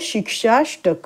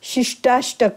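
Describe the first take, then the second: First: The second syllable has a 'ksh' sound. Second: The second syllable has a 'sht' sound. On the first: The speaker calls it right. "तर आपण नीट हा शब्द बोलायचा आहे" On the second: The speaker calls it wrong. "असं चुकीचं म्हणतात"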